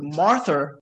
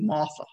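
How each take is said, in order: First: The R in Martha is clearly pronounced. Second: The R is dropped, Southside Virginia style.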